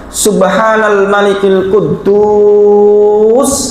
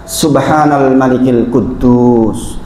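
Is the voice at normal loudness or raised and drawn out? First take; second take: raised; normal. First: It is said louder with the vowel stretched long. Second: It is said loudly at an ordinary length. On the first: "naik suaranya, sampai enam harokat" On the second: "dua yang pertama keras"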